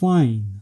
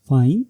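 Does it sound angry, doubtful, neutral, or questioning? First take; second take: angry; questioning. First: It sounds angry and sarcastic. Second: It sounds like a question. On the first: It shows strong anger. "ये strong anger और sarcasm को represent करता है।" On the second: It asks whether someone is sure. "ये question को represent करता है"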